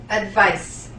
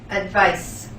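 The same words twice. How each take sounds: Both takes have the same delivery.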